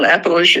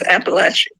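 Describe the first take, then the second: First: The word is said the northern outsider way. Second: The word is said the local Appalachian way. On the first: The speaker is an outsider to the region. The speaker calls it wrong. "it's not Appalachia" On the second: The speaker is from the region. The speaker calls it right. "it's Appalachia"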